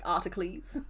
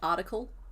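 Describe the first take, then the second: First: The word is said in an exaggerated, grand way. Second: The word is said in a plain, normal way.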